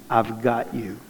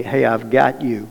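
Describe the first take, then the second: First: Much softer, dying away to near silence; fading reassurance. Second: Slow, soft reassurance; calm him down gently; reassuring God voice. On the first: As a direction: let it fade out tenderly. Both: Retold or imitated. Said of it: "God was saying to me".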